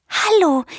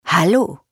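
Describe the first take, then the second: First: High, tentative bird greeting; high-pitched, cautious hello. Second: Friendly, placid hippo greeting; easygoing big-animal voice; peaceful rumbling hippo. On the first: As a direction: greet carefully in a small bird voice. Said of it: "fragt sie vorsichtig". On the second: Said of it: "Das Nilpferd grinst und brummt friedlich". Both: A narrator's reading.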